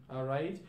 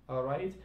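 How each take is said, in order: The two takes are said the same way.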